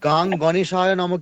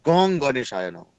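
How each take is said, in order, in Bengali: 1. প্রথম শব্দে একটি খোলা 'a' স্বরধ্বনি আছে। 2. প্রথম শব্দে একটি গোলাকার 'o' স্বরধ্বনি আছে। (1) "গাং গণেশায় নম কেউ বলবেন না" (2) "গণেশের বীজ মন্ত্র হচ্ছে গং, আর নট গাং"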